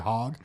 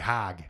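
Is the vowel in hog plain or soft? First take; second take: plain; soft. First: Hog is said with the speaker's own vowel. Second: Hog is said with a soft West Michigan O.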